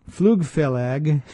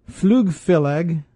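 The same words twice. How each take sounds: No difference in how they are said.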